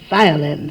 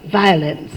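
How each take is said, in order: The two takes are said the same way.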